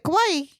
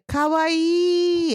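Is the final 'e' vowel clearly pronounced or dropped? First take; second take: dropped; pronounced. First: The final vowel is dropped or barely sounded. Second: The final vowel is clearly and fully pronounced. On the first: It means scary. The speaker calls it wrong. "You don't want to say kawaii" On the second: It means cute. The speaker calls it right. "You want to say kawaii and really pronunciate that e"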